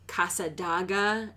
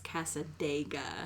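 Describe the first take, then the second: First: The third syllable has an 'ah' vowel. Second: The third syllable has an 'eh' vowel. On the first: The speaker calls it wrong. "it's not Casadaga" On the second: The speaker calls it right. "it's Casadega"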